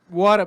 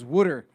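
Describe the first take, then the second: First: It is said in a general accent. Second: It is said in a Philly accent.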